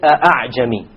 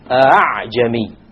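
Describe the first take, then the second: First: The second hamza is a full glottal stop. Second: The second hamza is softened, between stop and vowel. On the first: The speaker calls it wrong. "You don't say" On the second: The speaker calls it right. "it is in between"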